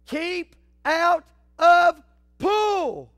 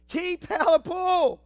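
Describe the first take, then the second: First: "Keep out of Pull!" stretched very slow and loud, each word hammered; drawn-out warning. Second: Said in the usual way. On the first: Shown as a demonstration. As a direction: drag out every word like a giant sign. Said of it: "second warning sign".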